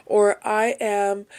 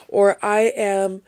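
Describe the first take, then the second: No difference in how they are said.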